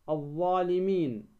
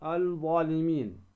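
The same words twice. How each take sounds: First: "الظالمين" with silent L and doubled ẓ, aẓ-ẓalimin; lam assimilated. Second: "الظالمين" said al-ẓalimin, with an audible L; wrong, sounded lam. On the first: Tajwid teacher showing the sun lam, "الظالمين" without L. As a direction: drop the L and lean on the ẓ in "الظالمين". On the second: Tajwid teacher showing the mistake, "الظالمين" with L. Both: Shown as a demonstration. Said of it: "ولا تقل ماذا".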